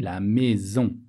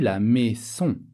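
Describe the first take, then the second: First: The middle consonant is a buzzing z sound. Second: The middle consonant is a hissing s sound. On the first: The speaker calls it right. "J'ai dit la maison. ... on le prononce Z" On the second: The speaker calls it wrong. "j'ai pas prononcé un S. J'ai pas dit la maison"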